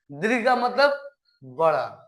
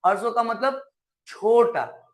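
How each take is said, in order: First: दीर्घ का मतलब बड़ा said slowly, weight on बड़ा; slow teacher emphasis; slow stressed definition. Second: हर्ष स्वर का मतलब छोटा, slow, with weight on छोटा; slow teacher emphasis; slow stressed definition. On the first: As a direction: drag it out so kids remember. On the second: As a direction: spell it out slowly for the class. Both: Shown as a demonstration. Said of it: "teacher stresses definition".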